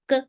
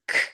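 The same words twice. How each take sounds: First: The k sound has no puff of air. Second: The k sound has a puff of air. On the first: "Usually in India, in Indian uh, accent, we usually teach teach this as" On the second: "if you are going to check American accent, it's k ... slight air coming out of your mouth"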